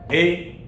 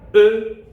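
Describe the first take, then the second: First: The vowel is a clear 'eh' sound. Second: The vowel is a neutral 'uh' sound. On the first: "Pas en espagnol. Ça va être toujours et" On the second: "en français, bien entendu, les sons qu'elles vont produire sont différents"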